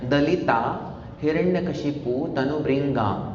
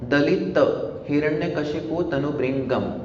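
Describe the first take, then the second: First: The word endings have long 'aa' vowels. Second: The word endings have short 'a' vowels. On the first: The speaker calls it wrong. "तो ऐसा वो गलत pronunciation हो गया" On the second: The speaker calls it right. "अंत का जो pronunciation है वो अ अ अ अ है।"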